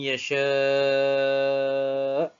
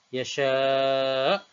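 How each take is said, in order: First: The long vowel is held for six counts. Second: The long vowel is held for four counts. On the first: "enam harakat" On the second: "dengan empat harakat"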